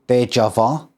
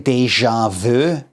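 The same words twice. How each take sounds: First: It is said with an English-style pronunciation. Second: It is said with a French-style pronunciation. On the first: "I don't say uh" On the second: "I say déjà vu. ... I just kind of say the whole thing French"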